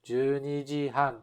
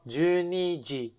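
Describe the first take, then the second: First: The pitch stays up until han. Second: The pitch drops right after ji. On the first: "the pitch doesn't go down until the han" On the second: "when I just say twelve o'clock, じゅうにじ, the pitch goes down"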